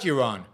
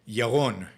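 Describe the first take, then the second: First: The R is a soft English R. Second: The R is a throaty, guttural sound. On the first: "It just comes out Yaron" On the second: "my name is Yaron"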